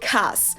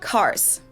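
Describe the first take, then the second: First: The ending is devoiced and the R is dropped. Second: The ending is devoiced and harsh. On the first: It sounds even more like a German speaker. "if you apply the R rule as well" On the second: It sounds like a German speaker. "say cars"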